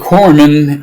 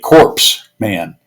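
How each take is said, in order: First: The first part does not sound like 'corpse'. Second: The first part sounds like the word 'corpse'. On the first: The speaker calls it right. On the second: The speaker calls it wrong.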